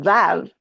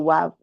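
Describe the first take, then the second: First: The name begins with a V sound. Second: The name begins with a W sound.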